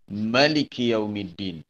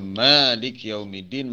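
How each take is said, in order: First: The first vowel of Maliki is short. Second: The first vowel of Maliki is long. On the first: He is the king who truly rules. "Ma tu dipendekkan" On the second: He is the owner of the Day of Judgment. "ma dipanjangkan dua harakat"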